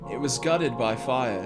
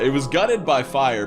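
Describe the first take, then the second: First: It is read in a put-on creepy British accent. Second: It is read in the speaker's ordinary accent.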